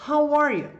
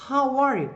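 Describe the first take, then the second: No difference in how they are said.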